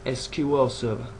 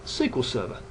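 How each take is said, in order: First: SQL is spelled out as three letters. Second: SQL is said as a single word. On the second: "you will have heard me refer to Microsoft's Server D B M S as"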